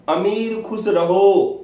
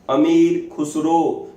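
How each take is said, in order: First: अमीर खुसरो said as अमीर खुश रहो, slow; child's wrong reading अमीर खुश रहो, slow and higher; mispronunciation. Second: अमीर खुसरो said slowly as one name; teacher's careful model of अमीर खुसरो; correct pronunciation. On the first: Retold or imitated. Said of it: "तो वो बोलता था". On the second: Shown as a demonstration. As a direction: give खुसरो clearly, syllable by syllable, slow. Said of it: "fifty times उसको बताया उन्होंने".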